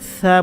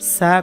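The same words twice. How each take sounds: First: It starts with the tongue between the teeth. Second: It starts with a plain hissing s sound. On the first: The speaker calls it right. "জিব্বার আগাটা সামান্য একটু বের করে দিয়ে সামনের উপরে দুই দাঁতের আগার সাথে লাগাতে হবে" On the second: The speaker calls it wrong. "সা কখনোই বলা যাবে না"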